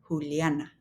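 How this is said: The name is said with Spanish sounds. The speaker calls it right. "this is Juliana"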